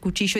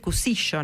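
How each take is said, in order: First: The middle consonant is a 'ch' sound. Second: The middle consonant is an 's' sound. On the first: "en vez de ser cuchillo" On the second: "no pronuncia la H"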